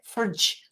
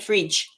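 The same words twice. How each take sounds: First: It is said in a New Zealand accent. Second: It is said in the speaker's own accent. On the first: "They go fridge" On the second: "because they don't say fridge"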